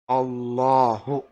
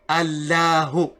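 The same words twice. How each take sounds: First: The L is said with an altered sound. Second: The L is said with its plain sound. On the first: The speaker calls it right. "this lam has a different sound" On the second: The speaker calls it wrong. "So you don't say Allahu"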